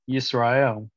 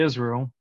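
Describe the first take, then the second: First: The name starts with a 'y' sound. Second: The name starts with a plain vowel sound. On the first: This is the original Hebrew form. "the Hebrew word is Yisrael" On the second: This is the usual English form. "you say Israel"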